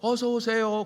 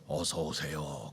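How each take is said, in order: First: It is said at a very high pitch. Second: It is said at a very low pitch. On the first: "너무 높은 톤으로 어서 오세요 그래도 그것도 이상하죠" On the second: "아주 저음으로 어서 오세요 그러면은 이게 이상하잖아요"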